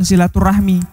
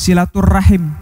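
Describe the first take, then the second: First: The word ends with the sounds 'rahmi'. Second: The word ends with the sounds 'rahim'. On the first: The speaker calls it wrong. "bukan silaturahmi" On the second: The speaker calls it right. "yang betul sebenarnya adalah"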